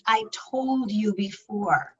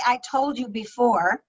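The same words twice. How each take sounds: First: Slower, softer, with a quiet edge of reproach. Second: Said in the usual way. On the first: Shown as a demonstration. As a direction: let a little irritation creep in. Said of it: "there's a little bit of edge in there". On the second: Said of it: "which is very neutral tone".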